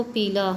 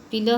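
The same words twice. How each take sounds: First: Long ee in पीला, like peelaa; lengthened vowel. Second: पीला said pilaa, short i; short vowel. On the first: Teacher showing a vowel error, long-ee पीला. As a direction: hold the first vowel of पीला. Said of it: "दीर्घ स्वर की भांति बोला जाता है". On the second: Teacher giving the original word, short-vowel पीला. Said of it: "हास्य स्वर". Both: Shown as a demonstration.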